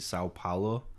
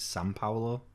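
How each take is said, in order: First: The first word is said the English way. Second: The first word is said with an n sound. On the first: "how we would pronounce it" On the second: "They, they pronounce it San Paulo"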